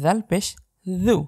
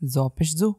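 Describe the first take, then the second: First: The consonant is soft, made with the tongue tip. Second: The consonant is a plain j sound. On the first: The speaker calls it right. "জিব্বার আগা থেকে নরম করে জু" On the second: The speaker calls it wrong. "আপনি যদি আমার মতো এভাবে পড়ে থাকেন তাহলে আপনি সম্পূর্ণই ভুল পড়ছেন"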